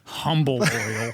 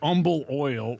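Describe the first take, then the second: First: The word starts with a clear h sound. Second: The word starts without an h sound. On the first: This is how people in Scotland would say it. "or for people in Scotland" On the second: This is how locals in Houston say it. "There is an H there, but they don't say it"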